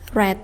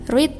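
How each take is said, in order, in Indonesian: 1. Vokalnya pendek, seperti 'red'. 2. Vokalnya panjang, seperti 'reed'. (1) "read verb dua" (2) "read verb satu"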